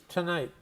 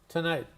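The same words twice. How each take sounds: The two takes are said the same way.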